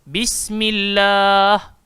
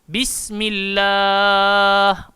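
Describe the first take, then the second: First: The final vowel is held for two counts. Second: The final vowel is held for four counts.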